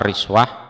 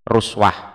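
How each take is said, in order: First: The first vowel is an i sound. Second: The first vowel is a u sound. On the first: "ada yang membaca riswah" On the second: "ada yang membaca ruswah"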